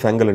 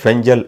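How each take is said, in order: First: The middle consonant is a hard 'g' sound. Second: The middle consonant is a soft 'j' sound. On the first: "ஃபெங்கல் என்று சொல்லியும் சொல்லப்படுது" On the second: "ஃபெஞ்சல் என்று சொல்லியும் உச்சரிக்கப்படுது"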